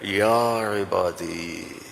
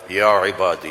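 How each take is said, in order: First: It is said in a tender, loving tone. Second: It is said in a formal reciting tone.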